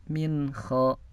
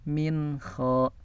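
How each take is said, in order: Both takes have the same delivery.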